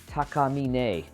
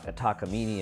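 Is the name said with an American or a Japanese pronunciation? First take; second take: Japanese; American. First: The name is said with a Japanese pronunciation. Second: The name is said with an American pronunciation. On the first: "it should be Takamine if you speak Japanese" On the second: "everyone pronounces it ta Takamine in America"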